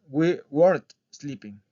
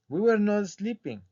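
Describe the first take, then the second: First: Were and not are contracted into weren't. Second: Were and not are said as two full words. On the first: The speaker calls it right. "les van a decir" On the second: The speaker calls it wrong. "forma larga"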